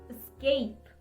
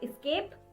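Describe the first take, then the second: First: The first syllable sounds like 'ess' without a k. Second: The first syllable sounds like 'ex' with a k. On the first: The speaker calls it right. "The correct pronunciation for this is escape" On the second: The speaker calls it wrong. "It's not escape"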